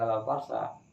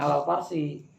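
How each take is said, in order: First: The last word ends in an 'a' vowel. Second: The last word ends in an 'i' vowel. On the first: The speaker calls it wrong. "Gak boleh alal farsa" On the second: The speaker calls it right. "dibacanya alal farsi"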